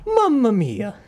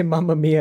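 First: High, falling Italian lament. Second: Said in the usual way. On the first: Acted. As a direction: draw it out in mock Italian dismay. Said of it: "I'll just go for the stereotypical".

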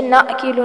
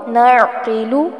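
First: नाक़िलु with a long plain naa, the ain lost; नाक़िलु said the wrong way; wrong recitation. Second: नअक़िलु said the right way; correct recitation. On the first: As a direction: show the mistake: नाक़िलु slurred without the ain. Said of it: "आइन पर झटका नहीं आना चाहिए". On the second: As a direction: recite नअक़िलु gently, ain clear but smooth. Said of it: "नाक़िलु ना हो". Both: Shown as a demonstration.

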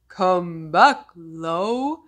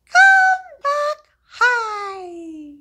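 First: Deeper slow voice; low voice. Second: Much higher and louder squeak. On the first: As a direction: drop your voice down low. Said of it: "one named Low". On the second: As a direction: shoot your voice way up high. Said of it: "one named High". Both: Shown as a demonstration.

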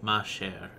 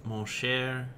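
First: "Ma chère" with an open "ah" vowel; feminine pronunciation. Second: "Mon cher" with a rounded "mo" vowel; masculine pronunciation. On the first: Sounding out the female form in French, "Ma chère" said "mah share". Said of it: "is female". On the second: Sounding out the male form in French, "Mon cher" said "moh share". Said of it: "is mal-, is male". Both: Shown as a demonstration.

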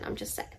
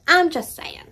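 First: "I'm just saying" barely breathed out, very soft; sheepish under-the-breath mutter; near-silent aside. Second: "I'm" lifted high, then a falling "just saying"; cheeky singsong defence; sassy high repeat. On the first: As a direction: drop to almost nothing on "I'm just saying". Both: Shown as a demonstration.

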